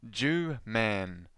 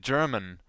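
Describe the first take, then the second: First: "Jew man" as two separate drawn-out words; misheard German. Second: "German" as one word, stress on the first syllable; intended word. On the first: Podcaster showing what the poor kid heard, misheard pronunciation. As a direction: say "Jew man" slowly, JEW then MAN, lower. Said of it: "thought the host was saying". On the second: Podcaster correcting what the host had really said, intended pronunciation. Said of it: "the host had really said". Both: Shown as a demonstration.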